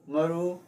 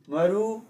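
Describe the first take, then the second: First: The pitch rises across the word. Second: The pitch rises across the word.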